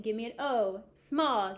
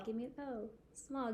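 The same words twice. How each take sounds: First: Said in the usual way. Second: Quiet echo. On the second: Shown as a demonstration. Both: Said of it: "you repeat".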